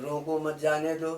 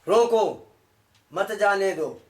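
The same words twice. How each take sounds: First: It is said softly, pausing after 'mat'. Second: The voice stops sharply right after 'roko'.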